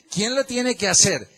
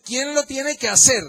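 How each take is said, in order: First: Said in the usual way. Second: Rising challenge. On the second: Real, not acted. Preacher challenges congregation loudly.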